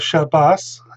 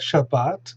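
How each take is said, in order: First: The final consonant is an s sound. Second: The final consonant is a t sound. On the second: "and in Sephard it's ta"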